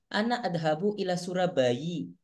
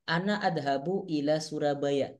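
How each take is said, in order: First: The name ends with an 'i' vowel. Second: The name ends with an 'a' vowel. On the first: The foreign name takes an Arabic case ending. The speaker calls it wrong. "Gak usah bilang" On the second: The foreign name keeps its own ending. The speaker calls it right. "Ketika anti ngomong, saya pergi ke Surabaya"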